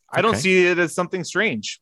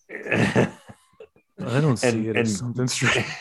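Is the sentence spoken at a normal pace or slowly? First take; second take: normal; slowly. First: The sentence is spoken at a normal pace. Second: The sentence is spoken slowly and deliberately.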